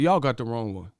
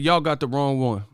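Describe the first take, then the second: First: Said in the usual way. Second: "Y'all got the wrong one" said firmly, a bit raised; insistent restatement of "Y'all got the wrong one"; emphatic repeat. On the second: Real, not acted. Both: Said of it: "I said".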